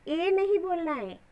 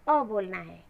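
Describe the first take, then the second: First: ए as the English letter name, not the sound; अक्षर का नाम ए. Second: अ short and clipped, the letter's sound; अ की ध्वनि; phonic sound. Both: Shown as a demonstration.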